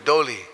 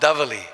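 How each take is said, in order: First: The v is smoothed away, leaving an l. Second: The word has a v sound and an l. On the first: The sharp sound is softened in the local speech. "So we smooth it into U" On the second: This is the standard form of the name. "they're called davali"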